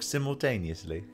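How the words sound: It is said in a British accent.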